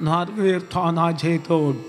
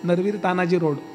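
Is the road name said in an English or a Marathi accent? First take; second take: English; Marathi. First: The name is said in an English-sounding accent. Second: The name is said in a natural Marathi accent. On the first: A voice assistant mispronounces the name. The speaker calls it wrong. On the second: This is how a Marathi speaker says it. The speaker calls it right.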